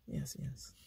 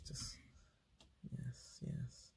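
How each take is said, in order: First: A quiet, compliant yes, yes; soft quiet yes. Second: Soft unvoiced whisper of yes, yes. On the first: Retold or imitated. To a hostile man, a quiet yielding yes, yes. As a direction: murmur agreement to end it. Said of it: "be Peter". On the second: Shown as a demonstration. To show smiling and nodding, a whispered yes, yes. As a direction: breathe the yeses like a nodding yes-man. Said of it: "smile and nod demo".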